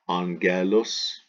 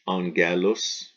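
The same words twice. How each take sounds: Both takes have the same delivery.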